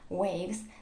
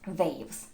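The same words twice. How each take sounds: First: It begins with a rounded W sound. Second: It begins with a buzzing V sound. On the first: The speaker calls it right. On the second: The speaker calls it wrong.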